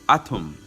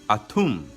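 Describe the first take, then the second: First: The T sound is hard and emphasized. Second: The T sound is hard and emphasized.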